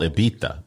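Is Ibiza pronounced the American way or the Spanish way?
Spanish. It is said the local Spanish way. This is what the place is really called. "Apparently, it's called Ibiza"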